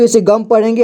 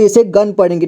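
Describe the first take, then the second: First: गम ending in m; गं read as गम. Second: गन ending in n; गं read as गन. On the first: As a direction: say गम with closed lips at the end. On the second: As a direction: say गन with the tongue closing on n. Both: Shown as a demonstration. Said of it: "दो तरह से पढ़ सकते हैं".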